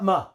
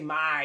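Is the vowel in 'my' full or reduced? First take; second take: reduced; full. First: The word has a short reduced vowel. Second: The word has a long full vowel. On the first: The speaker calls it right. "we schwa" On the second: The speaker calls it wrong. "we don't say my, it's too long"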